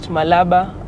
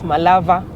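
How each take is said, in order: First: The middle consonant is a B sound. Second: The middle consonant is a V sound. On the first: This matches how the name is written. "Some people call it Malaba" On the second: This is how many local people say it. "others Malava"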